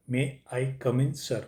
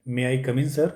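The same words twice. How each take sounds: First: May I come in sir drawn out slowly, word by word; slow model phrase. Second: Said in the usual way. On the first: Shown as a demonstration. Teacher slowly models may I come in sir for students.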